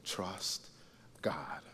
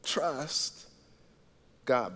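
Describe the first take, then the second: First: Trust, then a pause, then God; softly spaced words; slow emphatic phrase. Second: Trust, pause, God; repeated key words. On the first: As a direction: let each word land alone. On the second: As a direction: set apart for note taking. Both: Shown as a demonstration. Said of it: "here it is for your notes".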